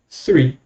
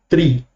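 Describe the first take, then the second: First: The word begins with a soft TH sound. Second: The word begins with a hard T sound. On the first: "um nativo americano ele vai falar three" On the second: "se você falar tri, está errado? Não está errado"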